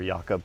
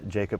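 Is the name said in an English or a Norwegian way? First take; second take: Norwegian; English. First: The name has a Norwegian-style pronunciation. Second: The name has an English-style pronunciation. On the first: The speaker calls it right. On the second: The speaker calls it wrong.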